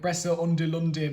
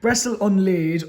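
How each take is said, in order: First: The name ends with a 'lunde' sound. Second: The name ends with a 'laid' sound. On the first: The speaker calls it wrong. "I keep calling it Brestle Undelunde, but that's not how you pronounce it at all" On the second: The speaker calls it right. "sorry Brestle Unlaid or Brestle and Laid"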